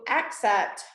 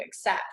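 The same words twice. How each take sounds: First: The first syllable is said with strong emphasis. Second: The first syllable is said with little emphasis. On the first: "I just did for that case" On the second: "usually I just say"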